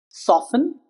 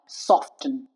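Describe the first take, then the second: First: The T is silent. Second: The T is pronounced. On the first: The speaker calls it right. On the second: The speaker calls it wrong.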